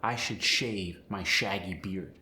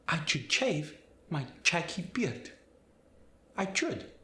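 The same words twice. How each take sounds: First: Said in the usual way. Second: Spanish accent, sh as ch in should, shave, shaggy, higher. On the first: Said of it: "For instance". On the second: Shown as a demonstration. Teacher demonstrating the sh to ch change, Spanish accent. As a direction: swap every sh for ch, Spanish style. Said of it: "S H sound is gonna change".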